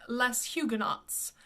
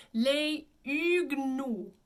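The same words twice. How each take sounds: First: "les Huguenots" Anglicised, S sounded, H and final TS pronounced; common mispronunciation. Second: "les Huguenots" drawn out as lay üg-NO, silent H; correct French pronunciation. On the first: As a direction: say "les Huguenots" as less HYOO-guh-nots. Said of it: "people will always say". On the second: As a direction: slowly model French "les Huguenots", no final consonants. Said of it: "The correct pronunciation". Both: Shown as a demonstration.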